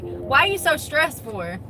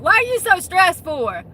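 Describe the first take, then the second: First: Drawn-out, mildly mocking question; stretched-out imitation of a clueless question; mocking quote. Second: Loud, high mock confrontation; high-pitched, pushy mocking question; in-your-face mocking. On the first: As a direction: mimic someone asking it, slowly. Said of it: "then they'll be like". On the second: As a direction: imitate someone getting right in your face. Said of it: "get in your face and be like".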